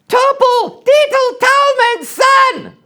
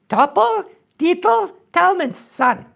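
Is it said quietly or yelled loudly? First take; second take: yelled loudly; quietly. First: It is yelled out very loudly. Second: It is said at a quiet, normal volume.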